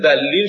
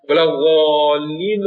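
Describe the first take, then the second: First: "ذلین" with a short, light first vowel; Persian-style "ذلین", without the Arabic lengthening; short Persian pronunciation. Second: "ولا ضالین" with a long, full Arabic â; Arabic-style "ولا ضالین", heavily lengthened; Arabic full long vowels. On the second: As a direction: draw out the vowel in "ضالین" as Arabs do. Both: Shown as a demonstration.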